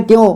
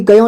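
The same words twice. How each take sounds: First: "क्यों" as one syllable, kyon; "क्यों" said kyon, no vowel after k; correct joined reading. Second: "क्यों" misread as ka-yon; two-syllable "क्यों", ka-yon; wrong split reading. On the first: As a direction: join half k straight onto yon in "क्यों". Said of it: "क्यों पढ़ना है". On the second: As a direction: say "क्यों" with a full ka before yon. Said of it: "कि क्यों नहीं पढ़ना है". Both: Shown as a demonstration.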